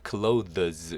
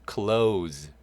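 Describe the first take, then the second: First: The th sound is fully pronounced before the s. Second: The th sound is dropped, sounding like close. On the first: The speaker calls it wrong. "미국 사람도 실제로 이 발음 clothes 이렇게 하시는 분 없습니다" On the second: The speaker calls it right. "그래서 요 th 발음이 되지 않아요"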